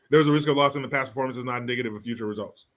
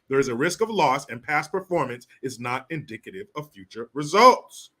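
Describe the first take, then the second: First: It is rattled off very quickly. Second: It is read at an ordinary, unhurried pace.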